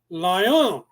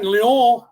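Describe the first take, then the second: First: The word has an English-style pronunciation. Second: The word has a French-style pronunciation. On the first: This is the later form the word changed into. "became lion" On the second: This is the older form the word came from. "the French used what they had in their alphabet"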